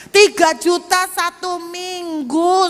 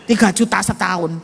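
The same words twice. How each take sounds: First: "tiga juta satu minggu" drawn out slowly and pitched much higher; stress on satu minggu. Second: Said in the usual way. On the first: Shown as a demonstration. Preacher to congregation, shocked at weekly rent, slow high stress. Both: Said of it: "Mau pikir berapa?".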